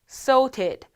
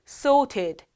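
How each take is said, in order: First: It is said with a British accent. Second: It is said with a British accent.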